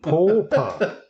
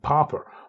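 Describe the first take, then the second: First: The word is said with a British vowel. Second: The word is said with an American vowel. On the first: This is how the speaker's own side says it. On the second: This is how people across the Atlantic say it.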